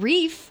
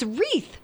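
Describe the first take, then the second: First: The word ends with an f sound. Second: The word ends with a th sound. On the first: The speaker calls it wrong. "It's not reef" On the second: The speaker calls it right. "It's wreath"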